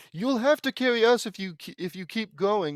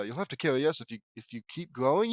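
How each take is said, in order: First: High, loud, outraged quoting; high-pitched, accusing recital; indignant requoting. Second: Said in the usual way. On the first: Real, not acted. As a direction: throw the line back as proof of theft. Requotes the stolen line, outraged.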